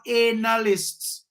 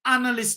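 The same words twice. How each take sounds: First: "analysts" with a long first vowel, AY-nuh-lists; mock mispronunciation. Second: "analyst" with a short first vowel, AN-uh-list; deliberate pronunciation. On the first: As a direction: stretch "analysts" slowly into AY-nalysts. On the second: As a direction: say "analyst" properly, stressed short first syllable. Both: Shown as a demonstration. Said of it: "You notice I pronounce the word".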